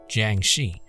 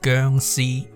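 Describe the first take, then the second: First: The name is said with English-style sounds. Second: The name is said with Cantonese sounds and tones.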